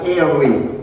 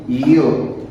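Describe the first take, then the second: First: Airway as two syllables, "eh-weh"; wrong pronunciation. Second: Yo as one gliding syllable, "yoo"; corrected pronunciation. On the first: Teacher shows students the misreading of ewe, two-syllable "eh-weh". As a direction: read airway as spelt, "eh-weh". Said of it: "Moi, pas airway". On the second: Teacher models ewe for students, yo as one syllable "yoo". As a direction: say yo like the word "you", falling. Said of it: "Moi, je dis yo". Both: Shown as a demonstration.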